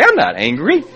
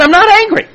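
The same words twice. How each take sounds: First: Said in the usual way. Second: Loud, high-pitched comic outburst; hammed-up defensive yell; angry denial. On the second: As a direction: deny it hotly, voice shooting up.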